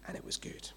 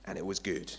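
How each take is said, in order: First: Hushed, voiceless whisper. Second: Said in the usual way. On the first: Acted. Preacher repeating the creation refrain, whispered. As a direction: breathe it out very softly.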